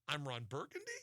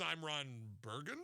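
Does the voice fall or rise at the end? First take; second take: rises; falls. First: The voice rises at the end, like a question. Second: The voice falls at the end, like a statement.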